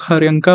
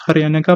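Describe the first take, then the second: First: हरयंका with N run straight into K; हरयंका, no vowel between N and K; variant pronunciation HARYANKA. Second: हरयनका with a short vowel after N; हरयनका, N split off from K; variant pronunciation HARYANAKA. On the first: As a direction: say हरयंका in three beats, har-yan-ka. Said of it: "कुछ लोग हरयंका बोलते हैं". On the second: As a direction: say हरयनका in four beats, har-ya-na-ka. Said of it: "कुछ हरयनका बोलते हैं". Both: Shown as a demonstration.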